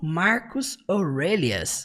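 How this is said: The name has an English pronunciation. "no inglês eles falam"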